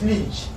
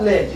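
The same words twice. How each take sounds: First: "leech" with a long EE vowel; corrected pronunciation. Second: "ledge" with a short e, as the error; wrong pronunciation. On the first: Teacher corrects pupils' word ending, long-ee pronunciation. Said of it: "it's leech". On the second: Teacher shows pupils the wrong ending, short-e pronunciation. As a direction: say "ledge" with an EH vowel. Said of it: "Not ledge". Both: Shown as a demonstration.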